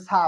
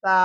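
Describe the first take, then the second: First: সা with a sharp plain s; wrong hard sa. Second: সা with a soft th-like start; correct soft sa. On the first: Teacher warns of the error, hard সা. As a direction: hiss the s of সা. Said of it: "ভুল হয়ে যাবে". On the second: Teacher corrects the error for learners, soft সা. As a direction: say সা lightly off the tongue tip. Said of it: "বলতে হবে সা". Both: Shown as a demonstration.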